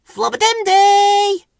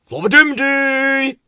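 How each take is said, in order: First: Very high, loud, long-held squeaky call; piercing drawn-out flowerpot-man call. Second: High, loud, drawn-out call; raised silly flowerpot-man holler. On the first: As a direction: holler the nonsense word afar. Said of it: "called Ben". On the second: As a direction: answer with a long last syllable. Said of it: "called Bill". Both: A narrator's reading.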